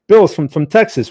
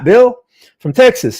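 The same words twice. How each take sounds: First: Said in the usual way. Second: "Bill" pitched high and loud in a hammed-up Texas accent; mock Texas accent. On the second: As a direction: greet Bill in a jokey Texan voice. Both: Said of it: "making fun of my, my Texas accent".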